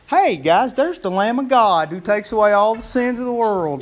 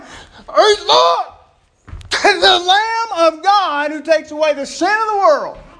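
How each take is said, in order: First: It is said casually and offhandedly. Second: It is said as an urgent shout.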